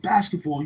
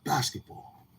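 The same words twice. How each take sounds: First: Pitched up, pushing the word; higher teasing echo of his reply. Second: Mumbled answer; muttering it back shyly; quiet mumble. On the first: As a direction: repeat it higher and brighter. Teller repeats the word back. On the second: He answers with one word. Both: Retold or imitated.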